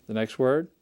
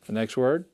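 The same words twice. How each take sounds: The two takes are said the same way.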